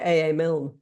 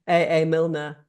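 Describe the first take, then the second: First: The surname is one syllable with no 'er'. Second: The surname ends with an extra 'er' syllable. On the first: This is how people in the UK say it. The speaker calls it right. "We say A A Milne" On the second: This is how a Dutch speaker says it. The speaker calls it wrong. "she said that in a Dutch way"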